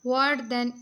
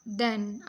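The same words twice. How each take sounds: First: "than" said louder and punched to draw attention; teacher spotlighting "than" with a firm push; emphasized word. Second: Said in the usual way. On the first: Shown as a demonstration. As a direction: hit the word "than" hard so students notice it. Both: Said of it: "अब जहाँ पे ये जो than है".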